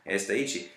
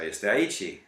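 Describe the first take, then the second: First: The two words run together as one. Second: The two words are said separately.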